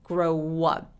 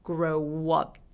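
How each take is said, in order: First: A w sound links the two words. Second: A w sound links the two words.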